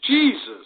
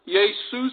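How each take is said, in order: First: The word begins with a J sound. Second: The word begins with a Y sound. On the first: The speaker calls it wrong. "the pronunciation in the English language is Jesus" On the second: The speaker calls it right. "the German word was pronounced Jesus also"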